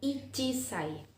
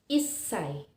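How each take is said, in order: First: It is said with a full 'chi' syllable. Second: It is said with a held, doubled 's' sound. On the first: The speaker calls it wrong. "bukan ichisai. Salah" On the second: The speaker calls it right. "tetapi issai atau memiliki bunyi spesial"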